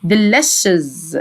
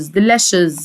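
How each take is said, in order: First: "delicious" slowed and lengthened; low-pitched, lingering "delicious"; slow pronunciation demo. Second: Said in the usual way. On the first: Shown as a demonstration. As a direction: draw out "delicious" for learners. Teacher's last, drawn-out model take.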